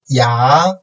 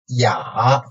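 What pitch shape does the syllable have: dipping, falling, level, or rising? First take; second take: rising; dipping. First: The pitch rises from mid to high. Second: The pitch dips low, then rises slightly.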